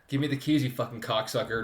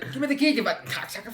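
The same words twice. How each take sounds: First: It is said in a plain, normal accent. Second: It is said in an Italian-style accent.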